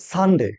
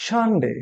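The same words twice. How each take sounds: First: সানডে with a plain hissed "s", "san-de"; mispronounced Sunday. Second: সানডে as a careful model, high then falling; corrected Sunday. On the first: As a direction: say সানডে as a spelled-out "san-day". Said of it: "কেউ বলি সানডে". (সানডে-র ভুল উচ্চারণ, "স" দিয়ে "সান-ডে") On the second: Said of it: "কি বলবো?". (সানডে-র সঠিক উচ্চারণ, ধরে ধরে) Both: Shown as a demonstration.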